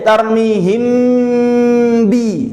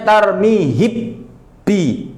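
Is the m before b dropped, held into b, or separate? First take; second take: held; dropped. First: One lip closure holds m straight into b. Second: The m disappears, leaving a doubled b. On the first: The speaker calls it right. "kerja sekali hasil dua" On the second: The speaker calls it wrong. "mimnya hi, hilang"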